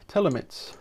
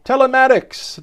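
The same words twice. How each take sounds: First: "Telemets" softly, cut to three syllables; mispronounced. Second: "Telematics" in full, pitched up, ending "-atics"; corrected pronunciation. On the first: Presenter unsure of a word in the article, mispronounced "Telemets". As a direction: stumble softly on "Telemets", losing the "-atics" ending. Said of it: "what's that one?". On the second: Presenter repeating a word just played, corrected "Telematics". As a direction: sound out all of "Telematics" in a higher voice. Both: Shown as a demonstration.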